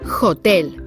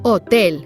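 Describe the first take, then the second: First: The word starts with an audible h sound. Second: The word starts with no h sound. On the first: The speaker calls it wrong. "and not hotel" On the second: The speaker calls it right. "In Spanish, you say hotel"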